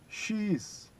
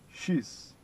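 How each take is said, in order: First: Two separate words are said in full. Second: The words merge into one short syllable.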